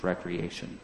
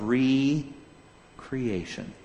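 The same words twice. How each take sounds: First: The word begins with 'rek', said as one word. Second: The word begins with 'ree', said as two parts.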